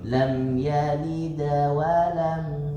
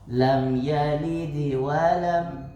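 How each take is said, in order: First: The d carries a faint a-like vowel. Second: The d carries a faint i-like vowel. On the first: It follows the view that the bounce is closer to fathah. "Tuh kalau fathah" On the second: It follows the view that the bounce is closer to kasrah. "lebih dekat ke kasrah"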